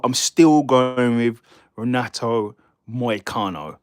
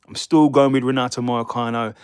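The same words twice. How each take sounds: First: Slow Scottish-accented statement of the pick, leaning on still; deliberate, unhurried restatement; slow firm pick. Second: Said in the usual way. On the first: Shown as a demonstration. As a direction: spell out the pick slowly, drawing out each word. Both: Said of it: "my pick has not changed".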